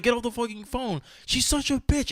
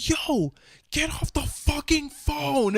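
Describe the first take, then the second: First: Mock angry order. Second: Urgent whispered order to get off the phone; whispered telling-off. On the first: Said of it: "I was so angry". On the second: Retold or imitated. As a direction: hiss it at him under your breath. Retold telling friend off.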